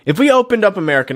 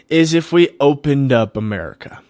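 First: Higher and fast, driving the point home; emphatic repeat. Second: Said in the usual way. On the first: Real, not acted. Pushing his idea on listeners, higher and fast. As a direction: hammer the idea again, quicker and higher.

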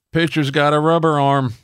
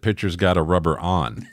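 First: High-pitched ballpark holler, retold; imitated heckler yell. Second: Said in the usual way. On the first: Fan aisles up heckling the pitcher, imitated yell. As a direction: call it out high to the field. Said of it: "four aisles up yells". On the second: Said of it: "I thought he said".

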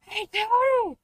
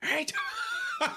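First: Shrill mock bark; high dog voice. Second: Dog voice. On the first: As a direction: yap it like a street dog. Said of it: "Doing the". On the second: Pretend.

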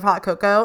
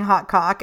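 First: Said in the usual way. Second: "hot cock", cocoa cut to one syllable; mispronounced "cocoa". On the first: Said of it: "instead of hot cocoa". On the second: Shown as a demonstration. Podcaster showing her recording slip, "hot cock" for cocoa. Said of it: "kept saying hot cock instead of".

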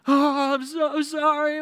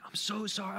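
First: Very high, loud, drawn-out fake wail; over-the-top mock crying. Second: High, soft pretend sobbing apology; put-on tearful plea, small and high; mock crying. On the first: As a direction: bawl the apology at double intensity. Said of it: "ramp it up even more". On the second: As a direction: whimper it like a caught kid. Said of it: "just starts crying".

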